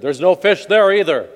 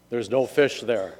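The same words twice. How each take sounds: First: Louder, higher booming announcement; voice from above. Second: Lightly voiced heavenly voice, slow; a slow, mild pronouncement; voice from above. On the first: Acted. Voice from above warns ice fisher, calling loudly. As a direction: call it down from the heavens. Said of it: "and then he heard". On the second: Voice from above warns ice fisher, measured pronouncement. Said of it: "a voice came from up above him".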